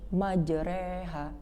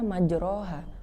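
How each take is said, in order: First: The vowel after r is a full 'e'. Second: The vowel after r is a plain 'a'.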